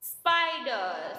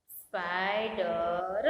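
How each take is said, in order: First: Said in the usual way. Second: સ્પાઈડર low and drawn out, "spai-da-ra"; slow syllable dictation. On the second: Shown as a demonstration. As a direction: sound out સ્પાઈડર slowly, releasing the final r with a vowel. Slow repeat for writing down.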